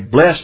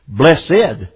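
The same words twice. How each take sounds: First: The word is said with one syllable. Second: The word is said with two syllables. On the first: The speaker calls it wrong. "I wouldn't say, not correctly" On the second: The speaker calls it right. "properly pronounced with two syllables"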